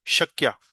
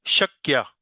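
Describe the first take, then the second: No difference in how they are said.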